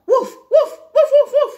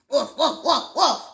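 First: High, loud, sharp woofs; regular dog bark. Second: Put-on oddly Spanish-accented woofs; Spanish-sounding dog bark. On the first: Acted. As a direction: bark like an excited ordinary dog. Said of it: "My first dog sounded regular". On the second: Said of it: "Why does your dog sound Spanish?".

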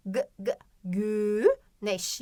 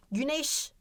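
First: Short "g, g", then slow "güneş" with long ü; isolated first sound. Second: Said in the usual way. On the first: Shown as a demonstration. Teacher testing the first sound, separated "g" before "güneş". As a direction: stutter out the g before stretching "güneş". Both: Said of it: "O sesiyle başlamıyor".

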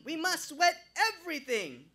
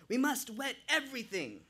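First: Very high, loud Jamaican shout; shouting Jamaican accent. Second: Put-on urgent Jamaican accent, raised pitch. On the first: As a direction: yell it frantically, Jamaican accent. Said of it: "rambling even louder". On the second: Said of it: "with a thick Jamaican accent". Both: A narrator's reading.

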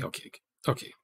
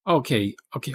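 First: Whisper. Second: Said in the usual way. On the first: Real, not acted. Repeating okay, then whispering it.

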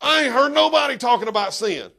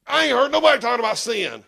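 First: Louder repeat with a laugh, NOBODY stressed; laughing retelling to the congregation. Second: Fast, a little louder, NOBODY hit hard; retold outburst. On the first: Acted. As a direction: replay the outburst laughing. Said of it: "my wife grabbed me and pulled me down". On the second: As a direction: blurt it out in church. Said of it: "and I was like".

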